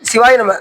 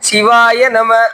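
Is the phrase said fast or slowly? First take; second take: fast; slowly. First: The phrase is said quickly. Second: The phrase is said slowly and deliberately. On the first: The speaker calls it wrong. "வேகமா சொன்னாரா" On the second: The speaker calls it right. "அப்படி சொன்னாரா"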